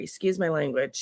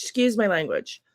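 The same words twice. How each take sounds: First: Lower, softer apology for "Excuse my language."; sheepish aside. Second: Said in the usual way. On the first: Real, not acted. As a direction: drop your voice and say "Excuse my language.".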